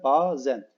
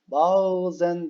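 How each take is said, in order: First: No soft g sound is inserted inside the word. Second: A soft g sound is inserted inside the word. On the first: The speaker calls it right. "Arada yumuşak G yok" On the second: The speaker calls it wrong. "böyle yumuşak G ile söylediğimiz oluyor"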